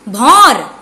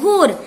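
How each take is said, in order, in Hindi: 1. स्वर 'au' की तरह बोला जाता है। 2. स्वर 'o' की तरह बोला जाता है। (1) "भौर नहीं होता" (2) "भोर होता है"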